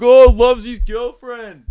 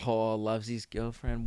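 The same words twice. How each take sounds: First: High, loud, slow singsong taunt; loud jeering mockery. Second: Low, very soft, slow teasing; muttered mockery. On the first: Mate making fun of a guy on the phone, loud jeer. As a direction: jeer it out, stretching the words. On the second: Mate teasing a guy after his phone call, muttered mockery. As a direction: tease under the breath, drawn out.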